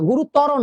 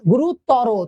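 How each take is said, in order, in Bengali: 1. শব্দটি ছোট করে থামা র দিয়ে শেষ হয়। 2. শব্দটি টানা ও-কার স্বর দিয়ে শেষ হয়। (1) "গুরুতর না" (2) "তর রো রকার রো"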